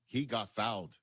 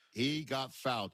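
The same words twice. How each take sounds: First: Said in the usual way. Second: "He got fouled" slow, each word hit; emphatic stress. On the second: Real, not acted. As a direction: lean on "He got fouled", slowly.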